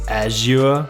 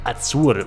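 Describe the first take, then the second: First: It is said with a British English pronunciation. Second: It is said the way locals in Malta say it. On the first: "In British English it would be something like Azure" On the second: "most people here in Malta say something like Azure window"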